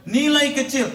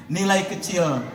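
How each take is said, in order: First: Nilai kecil pitched much higher and louder; emphatic. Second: Said in the usual way. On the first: Shown as a demonstration. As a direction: drive the point home with force.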